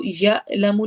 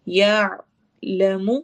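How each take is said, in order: First: یعلم with a plain hamza-like ya; wrong ain. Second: یعلم very slow, ain held in the throat; throaty ain. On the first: Teacher showing students the wrong sound. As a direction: say یعلم with a clipped jolt, no ain. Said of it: "تو یعلم نہیں اس کو پڑھنا". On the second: Teacher showing the class the correct ain. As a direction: hold the sound mid-throat on یعلم. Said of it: "تو عین کی ساؤنڈ نکلے گی". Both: Shown as a demonstration.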